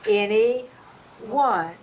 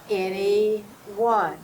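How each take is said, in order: No difference in how they are said.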